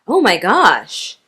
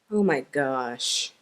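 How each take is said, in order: First: It is said in a surprised tone. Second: It is said in an angry tone. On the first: The speaker did not expect something. "if we're surprised" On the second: The speaker is upset with something. "if we're angry"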